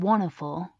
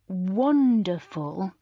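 First: The D in the middle is dropped. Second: The D in the middle is clearly pronounced. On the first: The speaker calls it wrong. "instead of" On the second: The speaker calls it right. "with the D in the middle"

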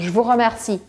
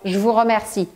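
Both takes have the same delivery.

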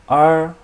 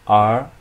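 First: The pitch stays high and level. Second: The pitch rises from mid to high.

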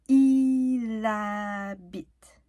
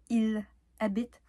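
First: The L sound joins the first syllable of habite. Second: The L sound is kept apart from habite. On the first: The speaker calls it right. "on prononce il habite. Donc, le L déménage" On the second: The speaker calls it wrong. "on prononce pas il habite"

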